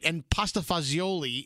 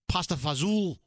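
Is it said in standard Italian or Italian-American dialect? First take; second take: standard Italian; Italian-American dialect. First: It is said in standard Italian. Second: It is said in Italian-American dialect.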